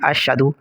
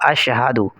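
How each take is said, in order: First: The 'ha' sound is left out entirely. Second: The 'ha' sound is present and short. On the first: The speaker calls it wrong. "हा को बिल्कुल हज़फ कर देते हैं" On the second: The speaker calls it right. "दुरुस्त लफ्ज़ होगा"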